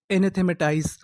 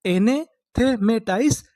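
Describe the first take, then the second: First: Said in the usual way. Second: Slow demo. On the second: Shown as a demonstration. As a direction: draw out एनेथेमेटाइज syllable by syllable. (एनेथेमेटाइज धीरे-धीरे खींचकर) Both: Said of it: "तो उससे हम लोग क्या बोलेंगे?".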